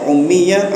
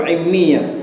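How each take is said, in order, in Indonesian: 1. Kata ini diawali dengan vokal 'u'. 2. Kata ini diawali dengan vokal 'i'. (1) "Jadi dua cara bacanya, ummiyah" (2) "atau immiyah, sama saja"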